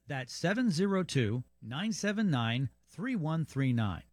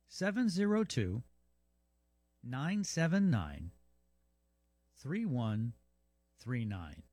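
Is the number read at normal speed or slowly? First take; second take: normal; slowly. First: The number is read at normal speed. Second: The number is read more slowly.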